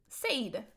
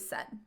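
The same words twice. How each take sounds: First: The vowel is long, like the word say. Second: The vowel is short and reduced, like sed. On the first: This is how the spelling suggests it should sound. "the way it's written, you would want to pronounce it said" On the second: This is how people say it today. "we've kind of schwabbed that middle and now we say said"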